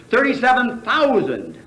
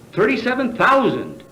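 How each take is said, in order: First: Thirty-seven punched, thousand falling away; stress on thirty-seven. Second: Thousand hit hard with a falling close; stress on thousand. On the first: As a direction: lean hard on Thirty-seven, let thousand drop. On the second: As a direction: land the weight on thousand, then fall. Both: Shown as a demonstration. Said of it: "thirty-seven thousand became irregular".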